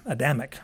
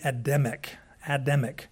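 First: "Adamic" with a weak first A and stressed DAM; shifted syllable emphasis. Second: "Adamic" with a full A first and DEM in the middle; Adamic with short-e middle. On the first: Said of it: "if you don't put the emphasis on the right syllable". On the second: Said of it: "put the emphasis on the right syllable". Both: Shown as a demonstration.

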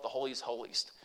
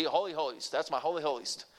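First: Said in the usual way. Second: A hint of a Southern grandpa saying "Holy holiest"; Southern accent. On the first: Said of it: "he talked like this". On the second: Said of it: "he was a Southern boy, and he talked like this".

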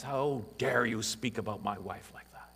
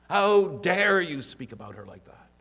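First: Said in the usual way. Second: "How dare you" thrown out higher and louder; rising to defend his wife, heated; indignant outburst. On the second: Retold or imitated. Husband rounding on a man who mocked his wife, indignant. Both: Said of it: "We would quickly rise to her defense".

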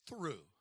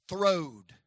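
First: "threw" said soft and proper. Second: "throwed" said loud and drawn out. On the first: Preacher offering "threw" to the proper people. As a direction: give "threw" quietly, the proper way. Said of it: "For you proper people". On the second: Preacher teaching the congregation the word "throwed". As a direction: land hard on "throwed", the local way. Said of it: "Davidson County people". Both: Shown as a demonstration.

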